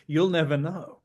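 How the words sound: It is said in a natural Australian accent. "in your Australian accent"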